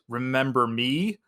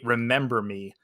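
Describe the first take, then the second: First: The voice rises at the end, like a question. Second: The voice falls at the end, like a statement. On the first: Asking whether he remembers her. "the inflection makes it sound like, "Hey, do you remember me?"" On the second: A parting remark before acting. "she doesn't say "remember me" and then do it"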